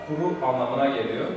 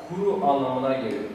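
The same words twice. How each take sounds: Both takes have the same delivery.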